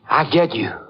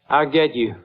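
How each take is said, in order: First: It is spoken in a whisper. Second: It is spoken in a normal voice.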